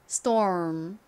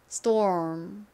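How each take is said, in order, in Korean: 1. 미국식 r 발음이 들어간 모음으로 발음합니다. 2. 미국식 r 발음이 들어간 모음으로 발음합니다.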